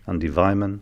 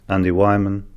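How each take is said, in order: First: The surname begins with a V sound. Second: The surname begins with a W sound. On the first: The speaker calls it right. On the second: The speaker calls it wrong.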